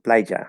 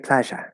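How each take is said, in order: First: It is said in another non-Argentine Spanish accent. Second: It is said in an Argentine Spanish accent. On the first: "or playa or whatever it is, however you say it" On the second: "If you grew up in Argentina, you would have learned how to say playa"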